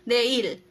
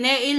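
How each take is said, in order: First: The word begins with a D sound. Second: The word begins with an N sound. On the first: "yung Ne nagiging De" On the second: "Neil po ang tama"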